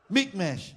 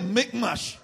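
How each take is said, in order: First: It is said in a British accent. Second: It is said in a Scottish accent. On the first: "I'm sorry to say it in a British way" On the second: "Or Scottish"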